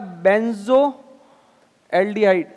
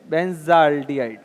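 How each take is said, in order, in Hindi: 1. 'o' स्वर 'benz' और 'aldehyde' को अलग करता है। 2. 'benz' बिना किसी स्वर के सीधे 'aldehyde' में जुड़ जाता है। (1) "इसका नाम हो जाएगा बेंजो एल्डिहाइड" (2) "प्रोनाउंसिएशन इसको बेंज एल्डिहाइड बोलते हैं"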